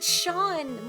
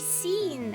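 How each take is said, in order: First: The name is said like 'shawn'. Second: The name is said like 'seen'. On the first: This is how the name is actually pronounced. "why do they pronounce it Sean" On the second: This is how the spelling seems to suggest saying it. "it should be seen"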